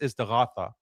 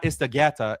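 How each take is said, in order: First: The middle consonant is a guttural gh sound. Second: The middle consonant is a plain g sound. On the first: The speaker calls it right. "istighatha with a ghain" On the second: The speaker calls it wrong. "It's not istagata"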